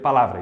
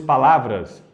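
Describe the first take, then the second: First: The word ends without the final s. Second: The word ends with a clear final s. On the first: "eu falava as palavras sem terminá-las" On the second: "se fosse palavras"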